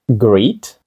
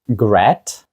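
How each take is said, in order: First: The vowel is a long 'ee' sound. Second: The vowel is a short 'eh' sound. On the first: "Greet? Gret? Ні" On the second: "Greet? Gret? Ні"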